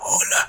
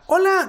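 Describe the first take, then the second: First: It is said in an old person's voice. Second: It is said in a young child's voice.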